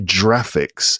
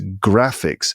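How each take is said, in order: First: The word begins with a soft J sound. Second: The word begins with a hard G sound. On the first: The speaker calls it wrong. "We don't say graphics" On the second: The speaker calls it right. "It's graphics"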